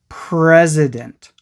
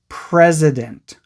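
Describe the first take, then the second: The two takes are said the same way.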